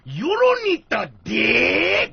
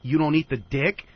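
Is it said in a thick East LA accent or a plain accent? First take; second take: thick East LA; plain accent. First: It is said in a thick East LA accent. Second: It is said in his plain accent.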